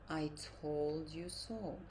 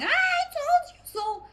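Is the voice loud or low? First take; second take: low; loud. First: It is said in a lowered, calm voice. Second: It is said in a loud, raised voice.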